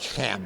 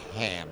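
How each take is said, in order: First: It begins with a harsh, k-like sound. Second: It begins with a plain h sound. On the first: The speaker calls it right. "it's actually Ham ... It's a chem, like in chemistry" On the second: The speaker calls it wrong. "not ham ... like ham sandwich"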